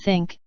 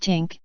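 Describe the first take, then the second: First: The word begins with a th sound. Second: The word begins with a plain t sound.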